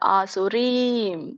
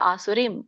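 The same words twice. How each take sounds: First: The last syllable has a long vowel. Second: The last syllable has a short vowel. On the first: The speaker calls it right. "ದೀರ್ಘ ಇದೆ ರೀಮ್ಗೆ" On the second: The speaker calls it wrong. "ಆಸುರೀಂ ಅಲ್ಲ"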